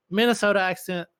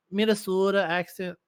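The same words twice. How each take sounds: First: Said in the usual way. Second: Lightly mimicked Minnesota accent on the long O. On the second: Shown as a demonstration. Teller mocking the Minnesota accent, lightly put-on Minnesota accent.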